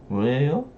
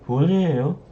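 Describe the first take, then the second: First: The voice rises at the end. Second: The voice falls at the end. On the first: It is a question. "You can also make a question by raising tone at the end" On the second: It is a statement. "It's water"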